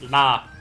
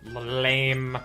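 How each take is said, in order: First: It is said in a French way, ending clipped. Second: It is said with a plain English pronunciation.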